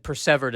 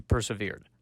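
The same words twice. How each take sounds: First: "persevered" as per-SEV-erd, short middle vowel; Shakespearean pronunciation. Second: "persevered" as per-suh-VEERED; usual pronunciation. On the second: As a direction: stress the long final syllable of "persevered". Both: Shown as a demonstration. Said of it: "as opposed to persevered".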